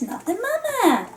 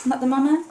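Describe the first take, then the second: First: Put-on high, swooping baby catchphrase; Baby Sinclair. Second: Said in the usual way. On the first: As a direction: squeal it like a cartoon baby. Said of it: "also known as Not the Mama". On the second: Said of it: "Although he's calling them".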